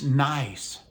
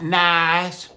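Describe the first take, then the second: First: The vowel is short and crisp. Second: The vowel is drawn out long. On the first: The speaker calls it right. "It's nice" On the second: The speaker calls it wrong. "not nice. Y'all love to drag that I out"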